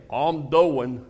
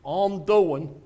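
First: Lightly voiced flat Virginia drawl; a hint of a worn-out man; imitating Chief. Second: Lightly voiced weary mumble; a hint of a tired old man; imitating Chief again. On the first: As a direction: give his tired mumbled answer. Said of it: "He'd say". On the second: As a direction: echo his listless reply. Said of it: "That's exactly it".

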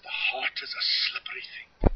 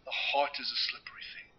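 First: Put-on light Yorkshire accent, whispered. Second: Said in the usual way. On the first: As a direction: quote a Yorkshire friend softly, whispered. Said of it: "thick Yorkshire accent". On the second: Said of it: "It's true".

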